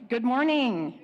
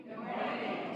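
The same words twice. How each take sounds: First: Loud, bright call of good morning to the hall; loud greeting. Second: Soft whispered good morning, barely voiced; whispered greeting. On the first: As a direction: greet the whole room loudly. Greets the congregation. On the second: Greets the congregation again. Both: Real, not acted.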